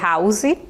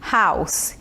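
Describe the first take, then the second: First: The final sound is a buzzing Z. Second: The final sound is a hissing S. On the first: The speaker calls it wrong. "nada de dizer house" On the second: The speaker calls it right. "A pronúncia é como se fosse um S mesmo"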